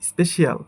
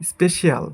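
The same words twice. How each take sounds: Both takes have the same delivery.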